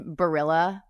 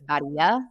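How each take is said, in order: First: It is said with an American pronunciation. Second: It is said with an Italian pronunciation. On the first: The speaker calls it wrong. "Barilla is how you say it if you're American" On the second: The speaker calls it right. "it's just a bastardization of of an Italian word. So it's Baria"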